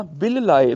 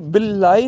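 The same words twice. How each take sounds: First: ਬਿਲ ਲਾਏ as "bil-laa-e", each l sounded; two separate l's. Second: ਬਿਲ ਲਾਏ blended as one "billaai"; run-together word. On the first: Teacher correcting the class, ਬਿਲ ਲਾਏ with two l's. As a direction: part ਬਿਲ from ਲਾਏ, both l's clear. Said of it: "ਦੋ ਵਾਰ ਲੱਲਾ ਲੱਗਿਆ ਹੋਇਆ". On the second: Teacher showing what not to say, ਬਿਲ ਲਾਏ blended. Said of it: "ਬਿਲ ਲਾਏ ਨਹੀਂ ਬੋਲਣਾ". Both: Shown as a demonstration.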